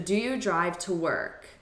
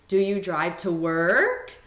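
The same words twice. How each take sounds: First: The pitch rises only slightly at the end. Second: The pitch rises strongly at the end. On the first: The speaker calls it right. "it's a very subtle incline" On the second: The speaker calls it wrong. "It's not going to be, ... As sometimes teachers will tell you"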